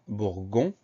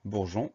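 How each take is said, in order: First: "bourgon" with a hard g, as in gare; mispronounced without E. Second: Said in the usual way. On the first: Shown as a demonstration. Teacher shows pupils what dropping the E gives, hard-g "bourgon". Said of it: "Si on enlève le E, ça donne". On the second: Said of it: "On pense à mettre le E derrière le G".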